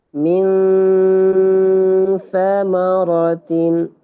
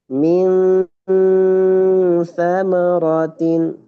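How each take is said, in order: The two takes are said the same way.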